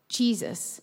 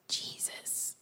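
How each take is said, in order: First: It is said a bit louder. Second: It is said quietly, without shouting.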